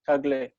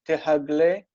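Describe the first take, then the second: First: No h sound; the syllables merge into one. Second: An h sound follows the first syllable.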